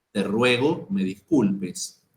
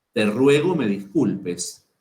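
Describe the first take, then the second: No difference in how they are said.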